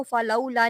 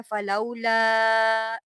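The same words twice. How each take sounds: First: Said in the usual way. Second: फलौला with the vowel after ल stretched long; drawn-out madd. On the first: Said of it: "आपने इसको फलौला नहीं पढ़ना". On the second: Shown as a demonstration. Teacher shows students how to lengthen the madd. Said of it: "लंबा करेंगे".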